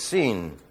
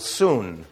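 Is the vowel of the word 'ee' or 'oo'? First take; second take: ee; oo. First: The vowel sounds like 'ee'. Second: The vowel sounds like 'oo'. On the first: The speaker calls it right. "it's "seen."" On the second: The speaker calls it wrong. "Unfortunately, pronounced in Bible school, "soon." It's not "soon,""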